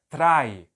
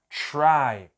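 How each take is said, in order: First: The r is a hard, tapped sound. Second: The r is a soft, smooth sound. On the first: The speaker calls it wrong. "Se isso aqui fosse português, como que a gente leria? A gente ia ler trai" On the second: The speaker calls it right. "Em inglês, o R não é dessa forma"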